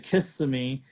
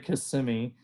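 First: The stress is on the first syllable. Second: The stress is on the second syllable. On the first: The speaker calls it wrong. "a lot of people say Kissimmee" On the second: The speaker calls it right. "it's really Kissimmee. So it's kind of the end of that, those S's, that's really kind of like emphasizes the syllable"

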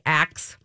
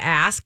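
First: The word ends with a k then s sound. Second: The word ends with an s then k sound. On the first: The speaker calls it wrong. "he likes to say axe" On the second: The speaker calls it right. "instead of ask"

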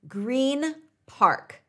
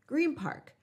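First: Green ends in a clear n sound. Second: Green ends in an m-like sound.

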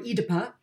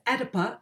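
First: It is said in a non-American style. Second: It is said in an American style.

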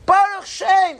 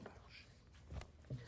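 First: It is said out loud. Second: It is whispered.

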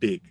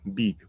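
First: The vowel is a short i sound. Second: The vowel is a long ee sound. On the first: The speaker calls it right. "the proper way to pronounce it is big, big. So focus on that short I sound" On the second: The speaker calls it wrong. "you typically want to say big"

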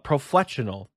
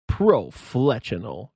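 First: It is said in a normal speaking voice. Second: It is said like the Halo announcer.

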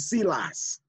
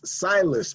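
First: The name is said with a Spanish pronunciation. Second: The name is said with an American pronunciation. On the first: "Or Spanish, it would be Silas" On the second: "It's in America, it's Silas"

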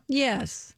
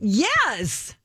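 First: The word is said flatly, with little energy. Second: The word is said enthusiastically, with high energy. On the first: The speaker calls it wrong. "her tepid response" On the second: The speaker calls it right. "I'm going to match your enthusiasm"

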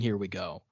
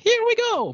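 First: It is said plainly in a normal voice. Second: It is said in a cartoonish Mario voice.

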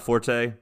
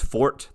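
First: The word is said as 'for-tay', with two syllables. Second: The word is said as 'fort', with one syllable. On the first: The speaker calls it wrong. "people are mispronouncing forte" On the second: The speaker calls it right. "Otherwise, it's fort"

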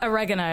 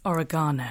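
First: It is said with an American pronunciation. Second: It is said with a British pronunciation. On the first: The speaker calls it wrong. "It's not oregano" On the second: The speaker calls it right. "it's oregano"

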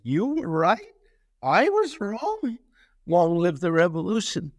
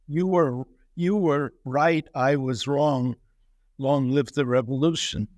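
First: It is read with an ironic, questioning inflection. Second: It is read as flat, plain statements. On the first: The admission is turned into mocking disbelief. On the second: The sender sincerely admits being wrong.

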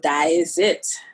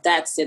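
First: It is said in a Trinidadian accent. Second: It is said in an American accent. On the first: "but in Trinidad, you say" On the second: "Like the vernacular slang that we would use here, you know, in America"

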